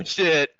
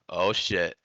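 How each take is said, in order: First: Higher, louder oh shit; loud surprised shout. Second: Said in the usual way. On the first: Real, not acted. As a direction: yell it out in shock. Repeated, now shouting.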